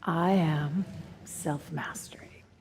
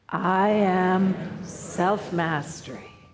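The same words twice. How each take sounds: First: It is said quietly. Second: It is said loudly.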